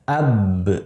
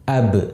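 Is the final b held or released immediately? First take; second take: held; immediately. First: The final b is held before release. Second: The final b is released immediately. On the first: The speaker calls it wrong. "Jangan kita baca dengan ditahan" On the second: The speaker calls it right. "Jadi langsung ab"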